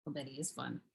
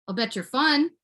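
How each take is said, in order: First: Very soft, low mutter; quiet aside. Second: Said in the usual way. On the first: Pretend. Turning from the little guy to oneself, quiet aside. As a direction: confide it to yourself, dropped right down. Same words as private aside.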